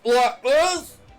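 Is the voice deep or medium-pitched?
deep. The voice is pitched deep and low. "You got like your deep voice like this?"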